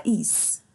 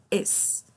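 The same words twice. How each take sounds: First: "is" with a tense long EE, like "ees"; wrong vowel in "is". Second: "es" with an open-mid E, as in escola; E sound in "es". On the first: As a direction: say "is" with a Portuguese I. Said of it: "A gente não fala is". ("is" com som de I, errado) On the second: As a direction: say "es" like the start of escola. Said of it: "como se fosse escola". ("es" com som de E, como em escola) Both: Shown as a demonstration.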